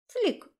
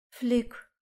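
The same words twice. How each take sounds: First: Very high, tiny chirp; satisfied squeak. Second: Said in the usual way. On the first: A narrator's reading. Little dragon curled up in the bag, satisfied squeak. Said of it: "удовлетворённо пискнул он". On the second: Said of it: "подтвердила я".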